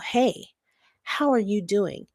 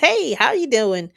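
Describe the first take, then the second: First: It sounds like a sincere, caring question. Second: It sounds like a casual, polite greeting.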